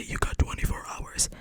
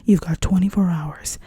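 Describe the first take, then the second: First: Hushed mimicry of a coming line; quietly quoting ahead; whispered prediction. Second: Delivered movie line. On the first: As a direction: whisper it as a knowing preview. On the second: Acted. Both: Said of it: "He's gonna say".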